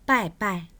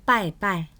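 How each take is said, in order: Both takes have the same delivery.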